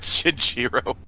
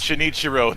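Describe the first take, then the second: First: The name has three syllables, shin-ji-ro. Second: The name has four syllables, shin-i-chi-ro. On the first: The speaker calls it wrong. "not Shinjiro" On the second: The speaker calls it right. "It's Shinichiro"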